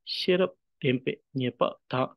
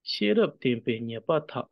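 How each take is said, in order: First: "shirap, tempe, nyepa, ta" as individual words; brief pause after each word in "shirap tempe nyepa ta"; word-by-word reading. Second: "Shirap tempe nyepa ta" run together as one line; connected, flowing "Shirap tempe nyepa ta". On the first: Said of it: "combination of individual words". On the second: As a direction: read "Shirap tempe nyepa ta" smoothly, no gaps between words. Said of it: "here it's more in the flow". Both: Shown as a demonstration.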